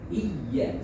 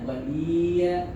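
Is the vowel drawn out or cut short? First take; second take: cut short; drawn out. First: The vowel is cut short and pressed. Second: The vowel is drawn out long. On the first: The speaker calls it right. "tapi langsung ditekan" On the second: The speaker calls it wrong. "jangan dipanjangkan, bukan iya"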